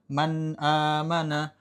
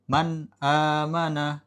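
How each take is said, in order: Both takes have the same delivery.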